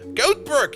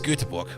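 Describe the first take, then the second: First: The name is said like English 'goat berg'. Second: The name is said with the Swedish pronunciation. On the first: The speaker calls it wrong. "Goatberg is probably almost correct if you say it like that" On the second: The speaker calls it right. "But it is Göteborg"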